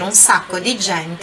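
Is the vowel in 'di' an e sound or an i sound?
i sound. The word di is said with an i vowel. This is the standard Italian form. "em vez de ele dizer"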